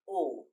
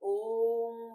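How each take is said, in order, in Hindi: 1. यह आवाज़ छोटी और सीधी बोली जाती है। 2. यह आवाज़ लंबी खींचकर बोली जाती है। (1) "इस ओम में तो साधारण है" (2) "हमें लंबी आवाज़ में खींचना है"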